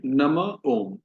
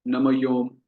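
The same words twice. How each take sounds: First: "नम ओम" as two words, nam then om, no y sound; correct pronunciation. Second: "नमयोम" run together as one word, na-ma-yom; wrong pronunciation. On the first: Teacher corrects devotees, "नम ओम" said as two clear words. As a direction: say "नम ओम" cleanly separated. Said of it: "ऐसा नहीं है". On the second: Teacher imitates how some devotees mispronounce, "नमयोम" run together. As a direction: blend "नमयोम" with a y glide, no break. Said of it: "नमयोम कह देते हैं". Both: Shown as a demonstration.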